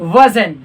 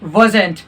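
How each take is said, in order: First: The final t sound is dropped. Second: The final t sound is clearly pronounced. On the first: "native लोग कैसे बोलते हैं वजन" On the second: "non native लोग कैसे बोलते हैं वजेंट"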